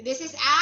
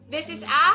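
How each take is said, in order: Both takes have the same delivery.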